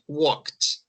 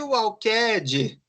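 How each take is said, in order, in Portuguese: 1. O final é falado como um som curto de 't'. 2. O final é falado como uma sílaba separada 'ed'. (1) "Agora aqui" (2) "Aí vem o cara e quer me ler assim"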